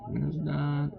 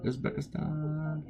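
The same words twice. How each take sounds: First: Said in the usual way. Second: Slow, high, stretched Uzbekistan; drawn-out sing-song. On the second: Real, not acted. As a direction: drawl out Uzbekistan playfully, pitched up. Playfully repeating country names.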